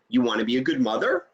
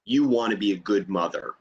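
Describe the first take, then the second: First: Rising question, a bit quicker; "You want to be a good mother?" rising on mother as a question; question tune. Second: Falling statement intonation, pitched lower; "You want to be a good mother." ending with a firm fall, a statement; reflection tune. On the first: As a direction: lift the end of "mother?" so it asks. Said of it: "inflection in my voice that either makes it a question". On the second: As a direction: reflect it back, settling down on "mother.". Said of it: "or a reflection". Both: Shown as a demonstration.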